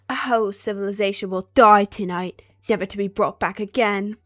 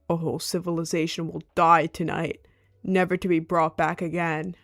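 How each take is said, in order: First: It is read in a British accent. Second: It is read in a non-British accent.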